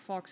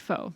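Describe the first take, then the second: First: The word ends with a ks sound. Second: The word ends in a plain vowel. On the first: "I don't know how you pronounce that word" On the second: "That's how you pronounce it"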